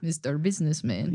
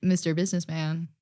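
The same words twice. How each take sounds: First: Put-on a fuller Russian accent on a repeat of the line; a thicker Russian voice with a rising end on Businessman. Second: Put-on a light Russian accent on the quoted line; quoting Heated Rivalry in a mild Russian accent. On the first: Friend repeats the show quote in a fuller Russian accent. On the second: Friend quotes a show line in a lightly done Russian accent. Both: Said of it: "Russian is also the only accent".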